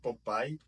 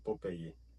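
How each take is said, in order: First: The name is said with English-style sounds. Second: The name is said with Spanish-style sounds. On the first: This is the form Spanish speakers would not recognize. The speaker calls it wrong. "Se você falar Popeye para qualquer pessoa que fala espanhol, ele não vai entender" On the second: This is the form Spanish speakers know. The speaker calls it right. "a gente pronuncia do jeito espanhol"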